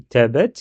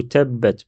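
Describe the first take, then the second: First: "tabbat" with one short b, questioning rise; quick undoubled b in "tabbat"; single b. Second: "tabbat" with the b held double; "tabbat" split as tab-bat; doubled consonant. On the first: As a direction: say "tabbat" without doubling the b. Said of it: "Est-ce que je dis tabbat". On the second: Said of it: "c'est comme si je dédouble la lettre ba". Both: Shown as a demonstration.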